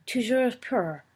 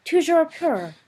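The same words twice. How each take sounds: First: A first, lighter cry of the toast Toujours pur; crowd cry. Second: Toujours pur shouted high and loud; loud crowd cry. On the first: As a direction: answer the toast with Toujours pur, not yet full. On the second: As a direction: throw the toast back as a roar. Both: A narrator's reading. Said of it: "cried every voice".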